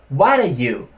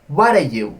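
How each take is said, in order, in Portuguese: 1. As palavras se fundem em um único bloco reduzido. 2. As palavras se fundem em um único bloco reduzido.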